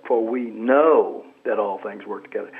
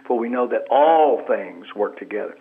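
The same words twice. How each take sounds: First: "know" lifted and leaned on; stress on KNOW. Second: "all" pushed out strongest; stress on ALL. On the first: Guest demonstrating inflection on a Bible verse, stress on "know". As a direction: let the weight land on "know". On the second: Guest demonstrating inflection on a Bible verse, stress on "all". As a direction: hit the word "all". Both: Shown as a demonstration. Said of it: "put an inflection on a different word".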